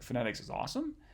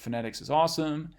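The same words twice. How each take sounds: First: It is said as a questioning echo. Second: It is said as a plain statement.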